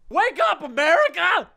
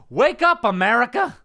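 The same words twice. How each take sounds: First: Very high-pitched, over-the-top yell; screamed rallying cry. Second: Raised, high rallying call; rousing segment title. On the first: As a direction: scream it to rouse a nation. Repeats the segment title as battle cry. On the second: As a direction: proclaim the rant's title. Announces his rant segment title. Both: Acted.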